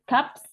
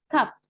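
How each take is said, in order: First: The word ends in p followed by s. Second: The word ends in a plain p. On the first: The speaker calls it wrong. "bukan cups" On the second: The speaker calls it right. "Ini yang dibaca huruf B-nya. Cup"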